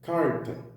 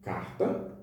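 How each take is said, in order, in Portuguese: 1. O R é pronunciado como um retroflexo. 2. O R é pronunciado como em Belo Horizonte. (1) "Que é o caso do R retroflexo" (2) "que é o caso do português de Belo Horizonte"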